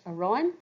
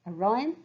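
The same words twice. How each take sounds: No difference in how they are said.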